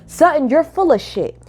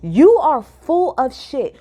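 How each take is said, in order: First: Said in the usual way. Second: Each word slowed and hit, "You" stressed; slow emphatic. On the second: Real, not acted. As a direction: spell it out slowly to land the insult. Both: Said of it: "that's what I'ma put... for my title".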